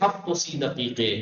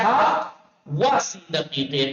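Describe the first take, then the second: First: The word 'and' is a joined 'o' sound. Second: The word 'and' is a separate syllable 'va'. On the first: The speaker calls it right. "पढ़ते कैसे" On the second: The speaker calls it wrong. "लिखा हुआ क्या"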